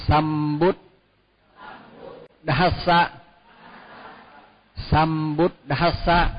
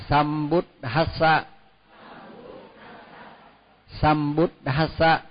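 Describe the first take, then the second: No difference in how they are said.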